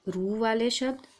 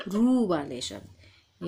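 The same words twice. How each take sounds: First: Said in the usual way. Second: Slow, with रू stretched and stressed; teacher slowing down to show the long ऊ in रू. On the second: Shown as a demonstration. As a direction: stretch the रू in रू वाले शब्द. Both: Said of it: "ज़ोर से long आवाज़".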